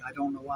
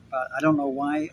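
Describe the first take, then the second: First: A hushed aside under the breath; whispered repeat. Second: Said in the usual way. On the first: Real, not acted. Vlogger puzzled by his UK views, whispering. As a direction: whisper it again to yourself. Baffled by the algorithm.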